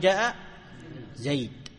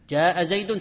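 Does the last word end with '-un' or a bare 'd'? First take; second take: bare d; -un. First: The last word ends with a bare 'd' sound. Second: The last word ends with a nasal '-un' ending.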